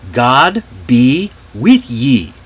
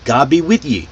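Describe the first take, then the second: First: God be with ye, slow, each word apart; long full phrase. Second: God be with ye run together; linked form. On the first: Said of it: "was a very long sentence". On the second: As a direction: link God be with ye into one quicker phrase. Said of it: "it was linked and reduced". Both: Shown as a demonstration.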